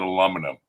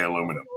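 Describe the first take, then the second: First: Aluminum as "a-LUM-uh-num", short middle vowel; childhood mispronunciation. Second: Said in the usual way. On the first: Shown as a demonstration. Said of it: "I used to say Washington and aluminum". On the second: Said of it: "I couldn't say aluminum".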